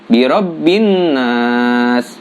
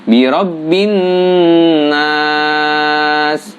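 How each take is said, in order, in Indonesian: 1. Dengung pada huruf n dibaca pendek. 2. Dengung pada huruf n dibaca panjang.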